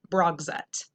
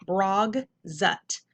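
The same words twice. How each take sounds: First: Said in the usual way. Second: "brog, zut" with a clear gap between syllables. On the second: Shown as a demonstration. Teacher reading the whole word to pupils, syllable by syllable. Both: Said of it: "whole word".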